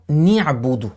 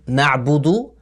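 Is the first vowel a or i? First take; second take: i; a. First: The first vowel is i. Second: The first vowel is a. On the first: The speaker calls it wrong. "avec le son i, kasra, en disant ni'budu" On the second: The speaker calls it right. "lire le noun de na'budu"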